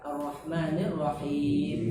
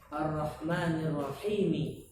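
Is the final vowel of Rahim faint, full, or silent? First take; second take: silent; full. First: The word ends with no final vowel. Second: The final vowel is pronounced fully.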